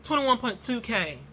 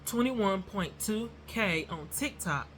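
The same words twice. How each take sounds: First: Too fast. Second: "Twenty-one point two K" slow and deliberate. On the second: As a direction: spell the number out slowly. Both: Shown as a demonstration. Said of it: "I said it too fast".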